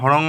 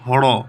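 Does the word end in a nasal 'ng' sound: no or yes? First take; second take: yes; no. First: The word ends with a nasal 'ng' sound. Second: The word ends without any nasal sound. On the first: The speaker calls it wrong. "হড়ং হবে না" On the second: The speaker calls it right. "উচ্চারণটা এরকমই হবে"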